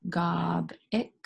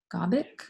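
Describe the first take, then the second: First: "Gob ick" slowly, a gap between the two syllables; syllables apart. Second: Said in the usual way. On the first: Shown as a demonstration. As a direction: sound out "Gob" and "ick" separately. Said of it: "we match it to". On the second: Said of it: "is that a word?".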